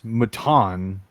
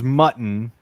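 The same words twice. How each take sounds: First: The word ends with a fancy emphasis on the end. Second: The word is said plainly, stressing the first syllable. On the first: It is sheep meat made to sound fancy. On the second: It is just plain sheep meat.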